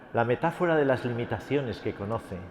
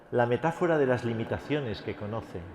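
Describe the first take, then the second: No difference in how they are said.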